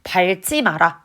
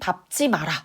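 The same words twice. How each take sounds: First: The first syllable ends in an L sound. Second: The first syllable ends in a P sound. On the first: The speaker calls it wrong. "안 됩니다" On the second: The speaker calls it right. "이렇게 소리가 나야 되지"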